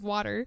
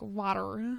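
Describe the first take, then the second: First: It is said plainly, with no regional accent. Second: It is said in a North Carolina accent. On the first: "instead of water" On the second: "like in North Carolina, they say water, like water"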